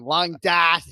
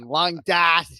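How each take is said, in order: First: It is said in a Boston accent. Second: It is said in a Boston accent.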